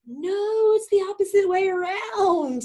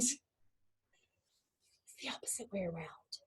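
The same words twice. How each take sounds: First: Very high, drawn-out exclamation; emphatic correction. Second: Slow, hushed whisper; whispered repeat. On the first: Teacher correcting the student's whole view, emphatic cry. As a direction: cry it out to overturn their idea. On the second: Teacher repeating the key point to the student, whispering. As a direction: whisper it slowly to let it sink in. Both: Real, not acted.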